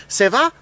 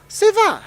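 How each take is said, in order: First: "Ça va?" asked as a question with rising tune; asking ça va. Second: "Ça va." answered much higher, as a reply; answering ça va. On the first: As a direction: ask "Ça va?" as a greeting question. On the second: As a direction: give "Ça va." back as a bright answer. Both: Shown as a demonstration. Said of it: "It's like in France".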